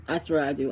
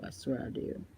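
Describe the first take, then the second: First: Said in the usual way. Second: Breathy whisper, almost no voice; whispered aside. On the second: Real, not acted. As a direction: lean in and whisper it like a secret. Swearing it's true, then repeats.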